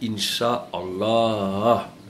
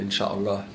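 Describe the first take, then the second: First: The word is said with an Arabic pronunciation. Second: The word is said with a French pronunciation. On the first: The speaker calls it right. "écoute bien" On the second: The speaker calls it wrong. "Pourquoi est-ce que tu prononces pas correctement le mot Inch'Allah?"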